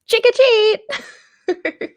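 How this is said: It sounds like an excited little child.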